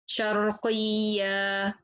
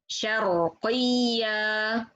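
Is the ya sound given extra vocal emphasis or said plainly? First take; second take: plainly; emphasis. First: The ya sound is said without raised voice. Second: The voice is raised on the ya sound.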